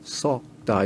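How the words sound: The vowel is said with slightly rounded lips. This is the North Korean pronunciation. "다르게 썩다 이렇게 되죠"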